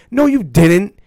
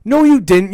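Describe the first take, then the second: First: Indignant. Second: Rising outrage on the repeat; indignant, louder. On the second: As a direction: push the denial harder and higher. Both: Real, not acted. Ranting at Goldberg's speech.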